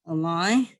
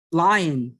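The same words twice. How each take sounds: First: A line said as a lie, final n swallowed; n dropped. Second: Line with a clear, full n at the end; careful pronunciation. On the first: Real, not acted. Teacher with an accent stumbling on the word line, n dropped. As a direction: say line with no n at the end, just laɪ. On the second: Shown as a demonstration. Teacher from southwest China fixing his accent, carefully saying Line. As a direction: land the final n of Line, a bit louder and deliberate. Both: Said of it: "Okay, now it's right".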